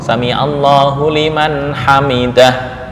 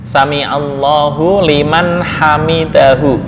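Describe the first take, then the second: First: The last word stops on a bare 'h' sound. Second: The last word ends with a full 'hu' vowel. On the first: The reciter pauses at the end. "Berhubung waqaf" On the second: This is the original full form. "Asalnya hamidahu"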